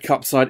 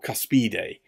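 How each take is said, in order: First: It sounds like the English words cup side. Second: It is said as three syllables, kus-pi-de. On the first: The speaker calls it wrong. "It's not the Cup Side" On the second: The speaker calls it right. "it's the Cuspide"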